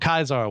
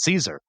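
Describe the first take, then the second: First: The name is said the classical Latin way. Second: The name is said the common English way.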